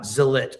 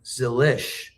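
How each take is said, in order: First: The name ends with a hard 'ch' sound. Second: The name ends with a soft 'sh' sound. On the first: This is how most people in the sport say it. The speaker calls it wrong. "not Zilich" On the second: This is how the family says the name. The speaker calls it right. "his dad pronounces their name Zilish"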